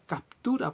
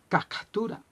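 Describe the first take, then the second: First: A clear P sound comes before the T. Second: The P sound before the T is missing. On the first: The speaker calls it right. "Se dice captura porque se escribe con P" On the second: The speaker calls it wrong. "hablaba de la captura"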